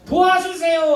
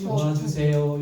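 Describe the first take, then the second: First: It is shouted loudly as a cry. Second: It is said quietly and calmly.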